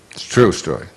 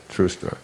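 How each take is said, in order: First: Said in the usual way. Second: "true story" breathed almost without voice; whispered aside. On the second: Shown as a demonstration. Speaker repeating "true story" in a whisper to the audience.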